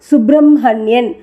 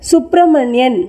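First: The h sound comes after the m. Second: The h sound comes before the m. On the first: The speaker calls it right. "படிக்கும்போது ... என்றே உச்சரிக்க வேண்டியிருக்கிறது" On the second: The speaker calls it wrong. "என்று எழுதினாலும்"

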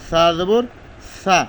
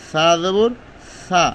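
Both takes have the same delivery.

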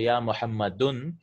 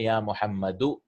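First: The name ends with an -un sound. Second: The name ends with a short -u sound. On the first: The speaker calls it wrong. "you cannot say ya muhammadun" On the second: The speaker calls it right. "you have to say ya muhammadu"

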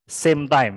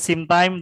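First: The first word has an 'ay' vowel, like 'same'. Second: The first word has a short 'i' vowel, like 'sim'. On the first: The speaker calls it right. "tapi same time ya" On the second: The speaker calls it wrong. "bukan same time"

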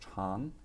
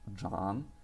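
First: The word is pronounced chang. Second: The word is pronounced zhang. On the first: It means long. "Если произносить чан, то это будет длинный" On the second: It means to grow. "Если произносить джан, это будет расти"

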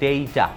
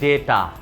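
First: The first vowel glides from e to i. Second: The first vowel is a plain short e. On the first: The speaker calls it right. "Proper pronunciation হবে ডেইটা" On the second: The speaker calls it wrong. "আমরা বলি ডেটা"

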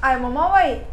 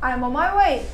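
First: The words run together with linked sounds. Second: The same.

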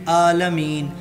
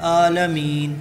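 No difference in how they are said.

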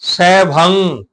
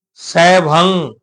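The two takes are said the same way.

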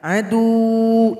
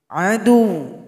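First: The final vowel is held long. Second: The final vowel is short, one beat. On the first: The speaker calls it wrong. "tidak boleh panjang. Adu, itu salah" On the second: The speaker calls it right. "Jadi cukup ditekan satu ketukan"

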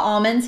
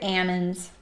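First: The word is said in the usual outsider way. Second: The word is said in the local regional way. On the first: The speaker is not from the area. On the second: The speaker is from the area.

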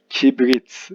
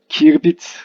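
First: The b sound comes before the r sound. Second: The r sound comes before the b sound. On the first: The speaker calls it right. "önce B sesi geliyor" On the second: The speaker calls it wrong. "Kirbit yanlış bir kullanım"

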